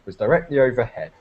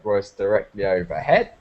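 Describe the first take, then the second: First: The pitch falls at the end. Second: The pitch rises at the end. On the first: "in British English we kind of like go down" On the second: "Australians go"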